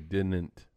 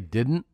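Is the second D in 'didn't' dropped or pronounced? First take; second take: dropped; pronounced. First: The second D sound is dropped. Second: The second D sound is clearly pronounced. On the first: This is how the two co-hosts say it. "both say the word D-I-D-N-T without the second D in it" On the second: This is the usual way people say it. "They don't say didn't"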